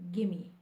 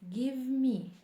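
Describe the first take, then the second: First: The two words are blended into one reduced word. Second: Both words are said fully and separately. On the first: The speaker calls it right. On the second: The speaker calls it wrong.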